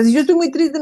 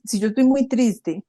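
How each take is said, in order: First: "si yo estoy muy triste" said higher and louder, lifting on "estoy"; emphatic sadness line. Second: Said in the usual way. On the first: Shown as a demonstration. Explaining crying to her co-host, lifting "estoy" higher and louder. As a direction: push "estoy muy triste" up with force, rising on "estoy". Emphatic restatement after "o sea.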